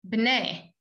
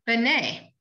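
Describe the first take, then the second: First: The first consonant runs straight into the next one. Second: A short vowel is sounded after the first consonant. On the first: "you kind of say b'nai" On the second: "It's b'nai"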